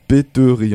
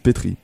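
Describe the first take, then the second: First: The vowel after the t is pronounced. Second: The vowel after the t is dropped. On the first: The speaker calls it wrong. "on ne prononce pas le deuxième E, donc péterie en fait" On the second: The speaker calls it right. "mais pétrie"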